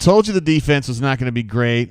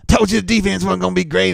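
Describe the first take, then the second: First: It is read in his own normal voice. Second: It is read in a put-on imitating voice.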